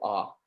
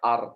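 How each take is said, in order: First: The final r is barely pronounced. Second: The final r is clearly pronounced. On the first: The speaker calls it right. "Jadi R-nya itu tipis banget, hampir hampir nggak ada" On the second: The speaker calls it wrong. "Bukan are"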